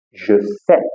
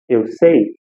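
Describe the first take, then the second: First: Sais said with a silent s; correct French. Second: Sei said the wrong, Portuguese way. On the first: Teacher shows the right je sais. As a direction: je sais with no s sound at the end. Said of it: "Eu vou falar". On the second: Teacher shows the mistake to avoid. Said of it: "Eu não vou falar, por exemplo". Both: Shown as a demonstration.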